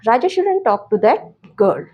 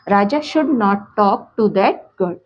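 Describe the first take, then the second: First: Should not is contracted into one word. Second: Should not is said as two full words.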